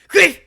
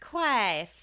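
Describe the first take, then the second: First: It is said in a clipped German accent. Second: It is said in a Southern US accent.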